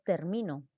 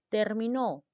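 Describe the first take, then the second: First: The stress is on the middle syllable. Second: The stress is on the last syllable. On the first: I finish, in the present tense. "Estamos hablando de un verbo en presente" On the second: It was finished, in the past tense. "Estamos hablando de un verbo en pasado"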